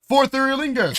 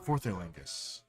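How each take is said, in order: First: It is said excitedly, as an exclamation. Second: It is said flatly, without excitement.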